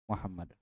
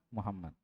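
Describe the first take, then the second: No difference in how they are said.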